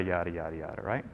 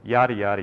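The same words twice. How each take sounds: First: Much quieter, fading yada; trailing off. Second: Said in the usual way. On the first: Shown as a demonstration. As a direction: let the yadas fade out.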